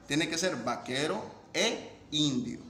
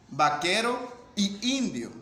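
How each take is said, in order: First: Said in the usual way. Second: Vaquero y indio slower and pushed; slow, emphatic wrong example vaquero y indio; wrong form stressed. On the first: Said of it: "Para eso se utiliza la vocal E". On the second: Shown as a demonstration. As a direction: mark the wrong "y" slowly for the class. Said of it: "No puedo decir tampoco".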